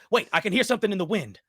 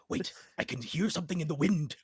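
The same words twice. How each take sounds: First: It is said in the young woman's voice. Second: It is said in the speaker's own voice.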